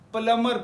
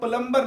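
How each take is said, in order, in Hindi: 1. m के बाद b की आवाज़ साइलेंट होती है। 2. m के बाद b की आवाज़ बोली जाती है। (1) "प्लमर प्लमर पढ़ते हैं" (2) "इसको हम प्लम्बर नहीं पढ़ते"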